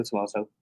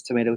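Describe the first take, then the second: First: "tomato" said tə-MAH-toh, British style; tomato the other way. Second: "tomato" said tə-MAY-doh, American style; tomato one way. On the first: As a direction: say "tomato" with a broad MAH vowel. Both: Shown as a demonstration. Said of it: "Some people, you know".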